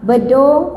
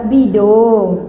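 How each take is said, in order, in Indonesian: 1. Suku kata pertama memiliki vokal 'e'. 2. Suku kata pertama memiliki vokal 'i'. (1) "kalau bedong tu bedong bayi kan" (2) "sebutan yang betul adalah Bidong"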